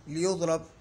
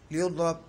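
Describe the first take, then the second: No difference in how they are said.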